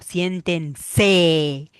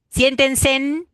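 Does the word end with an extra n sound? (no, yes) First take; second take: no; yes. First: The word ends without an n sound. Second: The word ends with an added n sound. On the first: The speaker calls it right. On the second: The speaker calls it wrong.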